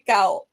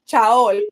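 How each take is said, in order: First: The name is said as one syllable, like 'cow'. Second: The name is sounded out letter by letter. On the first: The speaker calls it right. "I just say cow" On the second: The speaker calls it wrong. "I don't say like instant like chaol"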